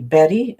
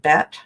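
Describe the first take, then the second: First: The name is said with two syllables. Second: The name is said with one syllable. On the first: This is what other people call her. The speaker calls it wrong. "people call me Betty instead of Bet" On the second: This is her real name. The speaker calls it right. "instead of Bet"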